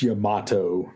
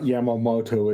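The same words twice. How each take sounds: First: "Yamato" in three syllables, ya-MA-to; corrected name. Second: "Yamamoto" with the extra mo syllable; mistaken name. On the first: Correcting a co-host on the battleship, "Yamato" slow, ya-MA-to. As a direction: say "Yamato" slowly, without the extra mo. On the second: Correcting a co-host's misreading, "Yamamoto" with an extra mo. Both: Shown as a demonstration. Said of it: "It's not Yamamoto, it's Yamato".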